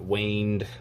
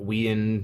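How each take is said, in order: First: The name begins with a 'way' sound. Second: The name begins with a 'we' sound. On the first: "not waned" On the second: "not we-end"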